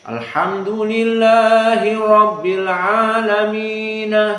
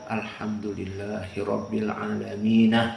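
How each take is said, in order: First: It is recited aloud. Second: It is recited quietly.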